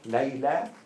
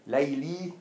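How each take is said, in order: First: The name ends with an 'ah' vowel. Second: The name ends with an 'ee' vowel. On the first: The speaker calls it right. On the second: The speaker calls it wrong.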